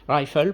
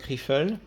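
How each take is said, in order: First: It is pronounced the English way. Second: It is pronounced the French way. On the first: The speaker calls it right. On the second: The speaker calls it wrong.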